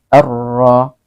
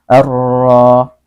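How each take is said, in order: No difference in how they are said.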